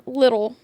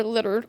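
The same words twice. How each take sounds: First: Said in the usual way. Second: "litter-" slipping into a Rhode Island accent. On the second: Real, not acted. Vlogger describing a childhood photo, Rhode Island accent slipping out on "litter-". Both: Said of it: "that was my Rhode Island accent coming out".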